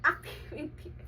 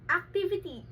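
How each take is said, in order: First: Activity breathed through a giggle; laughing whisper. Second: Said in the usual way. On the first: Shown as a demonstration. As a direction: repeat the word as a whispered laugh.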